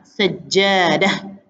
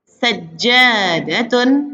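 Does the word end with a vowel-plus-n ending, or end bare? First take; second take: bare ending; vowel ending. First: The word ends bare, without final vowel. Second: The word ends with a vowel and n.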